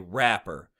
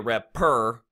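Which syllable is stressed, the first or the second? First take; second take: first; second. First: The stress is on the first syllable. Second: The stress is on the second syllable. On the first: The speaker calls it right. "you would say rapper. The app part is the stressed syllable" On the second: The speaker calls it wrong. "You wouldn't say rapper"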